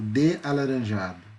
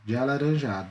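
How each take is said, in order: First: The vowels are pronounced separately, in distinct syllables. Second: The vowels merge into a single syllable. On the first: The speaker calls it wrong. "eu não falo de alaranjado" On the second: The speaker calls it right. "Na hora de eu falar, eu imito um som só"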